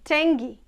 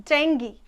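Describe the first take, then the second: The two takes are said the same way.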